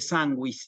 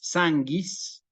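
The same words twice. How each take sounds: First: The u after the g is pronounced. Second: The u after the g is silent. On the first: The speaker calls it right. "en vez de sanguis" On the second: The speaker calls it wrong. "si leyéramos mal esta palabra"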